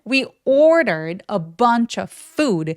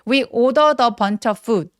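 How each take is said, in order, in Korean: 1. 이 문장은 뚜렷하고 강한 강세를 넣어서 말합니다. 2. 이 문장은 뚜렷한 강세 없이 평평하게 말합니다. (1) "강세가 되게 중요하니까" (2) "요거는 안 되겠죠?"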